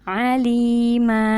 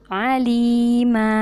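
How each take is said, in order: No difference in how they are said.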